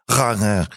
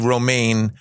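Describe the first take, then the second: First: The name is said with an exaggerated Dutch pronunciation. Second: The name is said with a plain American pronunciation. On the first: The speaker calls it wrong. "I learned in Holland ... it's actually pronounced Rane. ... I really exaggerated that" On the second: The speaker calls it right. "here in the United States, they say Romaine"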